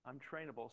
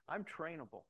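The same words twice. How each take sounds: First: Trainable gets the weight, with a falling close; stress on trainable. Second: I'm pushed up high, then trainable falls away; stress on I'm. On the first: Repeating it to himself, the stress on trainable. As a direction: settle the word trainable down firmly. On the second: Accepting a wife's lead with the stress on I'm. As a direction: lean hard on I'm, I'm trainable. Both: Retold or imitated.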